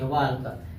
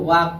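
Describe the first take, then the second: First: The L sound is pronounced before the k. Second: The L sound is silent before the k. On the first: The speaker calls it wrong. "इसको वाल्क नहीं पढ़ेंगे" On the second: The speaker calls it right. "इसको वाक पढ़ेंगे"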